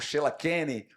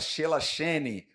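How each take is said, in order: First: The middle consonant is a hard 'k' sound. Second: The middle consonant is a soft 'sh' sound. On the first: "Alguns poderiam falar" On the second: "Alguns poderiam falar"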